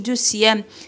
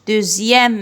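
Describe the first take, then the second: First: The x is pronounced as an s sound. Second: The x is pronounced as a z sound. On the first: The speaker calls it wrong. "ما نقولوش دوسيام" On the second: The speaker calls it right. "اكس ننطقوه زد"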